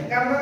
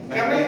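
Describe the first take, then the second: The two takes are said the same way.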